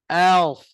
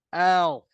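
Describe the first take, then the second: First: The vowel is open, sounding like a. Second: The same.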